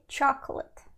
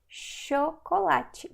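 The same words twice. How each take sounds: First: The word begins with a ch sound. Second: The word begins with an sh sound. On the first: This is the English pronunciation. "I know in English you say chocolate" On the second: This is the Portuguese pronunciation. "In Portuguese is sh"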